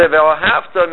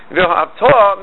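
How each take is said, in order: First: "ve'ohavta" with the accent on "hav", slowly; stress before the last syllable. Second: "Ve'ohavta" with the final "ta" stressed, higher; stress on last syllable. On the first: Teacher showing the past meaning, next-to-last syllable stressed. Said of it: "Normally you would stress the". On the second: Teacher showing the command meaning, last syllable stressed. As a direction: land the accent on the "ta" of "Ve'ohavta". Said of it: "move it down to the last". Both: Shown as a demonstration.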